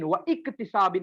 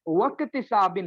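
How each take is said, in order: First: The second word starts with a separate glottal break. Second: The words run together without a glottal break. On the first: The speaker calls it wrong. "व इक्तिसाबिन नहीं होता है" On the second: The speaker calls it right. "वक्तिसाबिन होता है"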